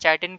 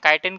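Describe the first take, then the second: First: The word begins with a ch sound. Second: The word begins with a k sound. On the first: "या चाइटिन कहें" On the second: "या काइटिन कहें"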